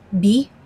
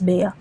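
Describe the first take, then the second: First: The name is said the way other countries say it. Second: The name is said the way Filipinos say it. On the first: "I think that's how they pronounce it in uh, other countries" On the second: "in the Philippines we pronounce it as Bea"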